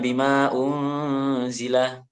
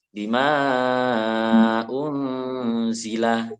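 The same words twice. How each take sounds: First: The vowel of ma is kept short. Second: The vowel of ma is held long. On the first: The speaker calls it wrong. "bacanya langsung aja dicucuk" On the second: The speaker calls it right. "ini bacanya harus panjang seperti mat wajib"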